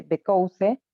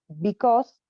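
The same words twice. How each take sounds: First: "because" read letter by letter as in Spanish, "be-cow-seh"; spelling pronunciation. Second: Said in the usual way. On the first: Shown as a demonstration. Teacher showing students the spelling, "because" pronounced as written in Spanish. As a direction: say "because" as written, sounding the final e. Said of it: "que se escribe".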